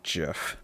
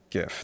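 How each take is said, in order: First: The word begins with a soft J sound. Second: The word begins with a hard G sound. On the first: The speaker calls it wrong. "not J" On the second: The speaker calls it right.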